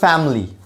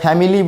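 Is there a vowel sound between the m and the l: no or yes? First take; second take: no; yes. First: No vowel is heard between m and l. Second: A clear vowel is heard between m and l. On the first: The speaker calls it right. "আমাকে বলতে হবে ফ্যামিলি" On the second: The speaker calls it wrong. "আমরা ফ্যামিলি বলি, কিন্তু ই উচ্চারণটা হবে না"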